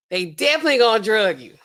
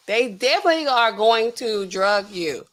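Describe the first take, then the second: First: Said in the usual way. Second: "definitely are going to drug you" word by word; emphatic restatement. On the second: Real, not acted. Restates it in full words.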